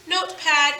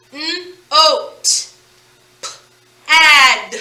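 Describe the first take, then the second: First: Said in the usual way. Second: N-O-T and P-ad broken into separate sounds, louder on P-ad; sounded out. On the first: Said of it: "bring them together". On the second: Shown as a demonstration. Teacher tapping out notepad for pupils, sound by sound. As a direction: sound out "N-O-T", pause, then "P-ad". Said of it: "tap that out and spell that out".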